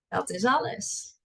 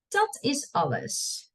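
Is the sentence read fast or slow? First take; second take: fast; slow. First: It is read at a fast pace. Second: It is read at a slow pace. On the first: "and then I'll read it fast" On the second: "I'll read it slow first"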